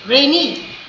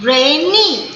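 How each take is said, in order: First: Said in the usual way. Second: rainy as rai... nee, both syllables full; two separate stresses. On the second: Shown as a demonstration. Teacher demonstrating two syllables, rainy split in two. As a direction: give rainy two distinct beats. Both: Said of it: "दो बार करेंगे".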